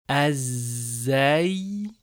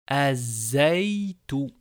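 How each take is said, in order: The two takes are said the same way.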